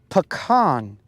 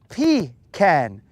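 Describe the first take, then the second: First: The first syllable does not sound like 'pee'. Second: The first syllable sounds like 'pee'. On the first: The speaker calls it right. "It is pecan" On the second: The speaker calls it wrong. "It is not pecan"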